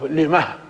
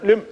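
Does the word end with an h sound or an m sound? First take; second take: h sound; m sound. First: The word ends with a soft final h sound. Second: The word ends on a plain closed m sound. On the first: This is one reciter's way of pausing on the word. "يقف على لما بهاء السكت" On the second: This is the other reciters' way of pausing on the word. "يقف عليها بالميم الساكنة"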